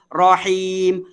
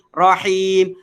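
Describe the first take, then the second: First: The first vowel is an open 'a' sound. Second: The first vowel is an open 'a' sound.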